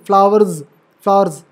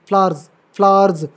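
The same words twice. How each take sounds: Both takes have the same delivery.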